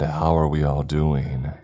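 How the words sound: It is said loudly, in a deep, angry tone.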